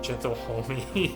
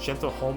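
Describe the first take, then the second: First: The word ends with an extra ee sound. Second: The word ends without an extra ee sound. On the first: "back in the day I used to call it gentle homie" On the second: "I think it's pronounced gentle home"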